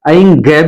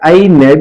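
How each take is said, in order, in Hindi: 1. यह अंत में एक अतिरिक्त ग की ध्वनि से समाप्त होता है। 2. यह अंत में एक अतिरिक्त न की ध्वनि से समाप्त होता है। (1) "ऐं ग भी नहीं है" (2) "ऐ न भी नहीं है"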